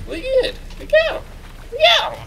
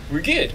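First: Very high squeaky chirps; silly falsetto cheer; playful squeak. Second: Said in the usual way. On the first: Pretend. Player freed from the tree and going, playful squeak.

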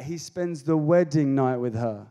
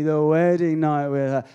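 First: Said in the usual way. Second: Knowing, teasing the wedding night with her; suggestive repeat. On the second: Shown as a demonstration. Preacher teasing the crowd about the wedding night, knowing. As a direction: let the wedding night with her land with a wink. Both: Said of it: "Uh-huh, honey".

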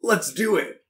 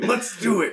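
First: Higher, punchy game-character catchphrase; video game soundbite. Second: High, hammed-up game-character catchphrase; video game soundbite. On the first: Real, not acted. Cohost agrees to summarize episodes, like a video game soundbite. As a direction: say it like a canned game voice line. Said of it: "That sounded like a soundbite from, like, a video game". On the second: Shown as a demonstration. Cohost replays his own line, exaggerated video game soundbite. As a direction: imitate a fighter's canned voice line. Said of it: "like, a video game".

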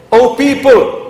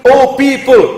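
The two takes are said the same way.

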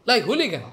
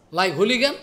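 First: Falling tune on hooligan; settled statement. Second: Rising question on hooligan; asking tune. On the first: To the audience, answering his own question, falling statement. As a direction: hooligan dropped flatly as an answer. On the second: To the audience, asking if he is a hooligan, rising question. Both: Shown as a demonstration.

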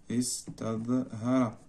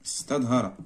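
First: Slow dictation. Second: Said in the usual way. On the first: Shown as a demonstration.

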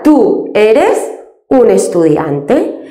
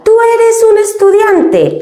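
First: Said in the usual way. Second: "¿Tú eres un estudiante?" pitched much higher, with the voice lifting on "eres" as a question; question intonation. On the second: Shown as a demonstration. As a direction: ask "¿Tú eres un estudiante?" with a big, high question lift. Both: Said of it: "Para preguntar".

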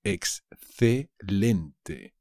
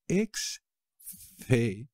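First: Excelente drawn out very slowly; slow model word. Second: Excelente very slow, rising at the end; slow rising model. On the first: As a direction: stretch Excelente syllable by syllable. (Excelente muy despacio) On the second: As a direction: stretch Excelente and lift the end. (Excelente muy lento, subiendo) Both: Shown as a demonstration.

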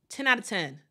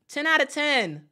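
First: Said in the usual way. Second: Excited verdict on the outfit; emphatic praise. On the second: Real, not acted. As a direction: really sell the ten out of ten. Repeats the styling praise emphatically.

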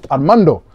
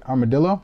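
First: Armando said firmly, falling and louder; corrected name. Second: Armadillo said as a puzzled misreading, rising; misread name. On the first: Breaker correcting himself on the winner's name. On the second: Breaker misreading a winner's name, unsure. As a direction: stumble over the name, saying Armadillo. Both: Shown as a demonstration. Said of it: "I'm not even saying it right".

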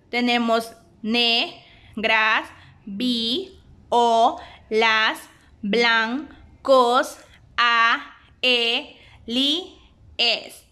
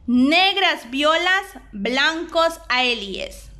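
First: Slow, each syllable split apart. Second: Said in the usual way. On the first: Shown as a demonstration. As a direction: count out every syllable with a small break. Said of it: "la separación utilizando diéresis". (sílaba por sílaba, despacio) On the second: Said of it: "De igual forma tenemos la separación correcta".

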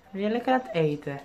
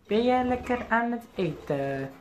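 First: Said in the usual way. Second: Slower sing-song with stress on jij. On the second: Real, not acted. Owner cooing to his eating parakeet, slow sing-song. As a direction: drag out jij, coaxing the bird in a higher slow voice. Repeats question in pet voice.

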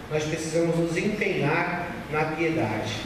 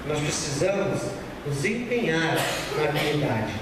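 No difference in how they are said.

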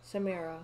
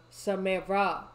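First: Said in the usual way. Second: Raised-voice call. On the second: Real, not acted. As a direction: call sharply to get their attention. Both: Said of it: "I had to yell at her".

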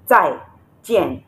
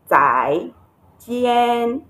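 First: "Tai" and "Jian" each dropping in pitch; falling tones. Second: "Tai" swung upward, "Jian" held high and level; don't drop "Tai" or "Jian", keep them up; wrong non-falling tones. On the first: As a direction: drop the sound on "Tai", then on "Jian". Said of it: "the two tones here are the falling tones". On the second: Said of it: "Because the tones here are different". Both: Shown as a demonstration.

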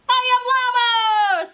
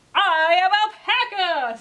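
First: High, loud, drawn-out holler as a llama; Llama character voice. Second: High, loud, slow announcement as an alpaca; Alpaca character voice. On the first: Llama introduces himself to Alpaca, high loud character voice. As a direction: belt it out slowly, way up high. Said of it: "said Llama". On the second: Alpaca answers Llama after the unzooping, loud character voice. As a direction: declare it big and drawn out, in character. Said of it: "said alpaca". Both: A narrator's reading.

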